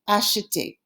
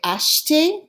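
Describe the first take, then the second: First: The middle vowel is clearly pronounced. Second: The middle vowel is dropped, slurring it together. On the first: Saying every letter makes the word easier to spell. "The reason we're pronouncing the E is it makes it easier to spell" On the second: This is how people often say it casually. "people will slur it together and say acheter. They won't say the E"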